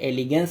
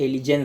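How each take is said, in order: First: The g before -ance sounds hard, like g. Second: The g before -ance sounds soft, like j. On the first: The speaker calls it right. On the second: The speaker calls it wrong.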